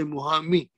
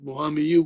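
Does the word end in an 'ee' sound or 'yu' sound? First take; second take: ee; yu. First: The word ends with an 'ee' sound. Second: The word ends with a 'yu' sound. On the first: The speaker calls it right. "we say Muhammi" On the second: The speaker calls it wrong. "we don't say that Muhammiyu"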